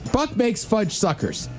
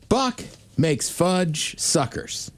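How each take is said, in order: First: It is said quickly, rushing. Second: It is said at a normal pace.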